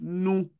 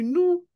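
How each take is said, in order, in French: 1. Le mot « nous » est prononcé sur un ton moyen. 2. Le mot « nous » est prononcé sur un ton haut. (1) "Avec le ton moyen" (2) "Pourquoi c'est le ton haut?"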